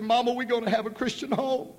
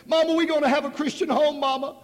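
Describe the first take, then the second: First: Put-on high, happy child's voice; joyful girl. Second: Much higher and louder, crying out with joy; ecstatic cry. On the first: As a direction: tell her mama with delight. Daughter tells mother. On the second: Retold or imitated. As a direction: let the joy burst out. Repeated, building joy.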